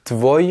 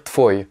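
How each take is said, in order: First: Tvoi with a true buzzing v; voiced V after T. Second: Tvoi pronounced tfoi. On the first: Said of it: "on va pas dire tvoi". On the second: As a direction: turn the v of tvoi into f. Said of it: "le V écrit se transforme en F à l'oral". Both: Shown as a demonstration.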